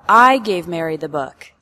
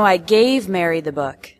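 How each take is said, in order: First: The word "I" carries the strongest stress. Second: The word "gave" carries the strongest stress. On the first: The speaker, not someone else, gave it. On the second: It was given, not lent.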